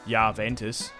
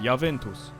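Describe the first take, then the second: First: It is said with an Australian accent. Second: It is said with an Italian accent. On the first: The speaker calls it wrong. "I would say Juventus, Juventus as an Australian" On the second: The speaker calls it right. "if you want to say it how the Italians say it and say it with an accent, it'd be Juventus"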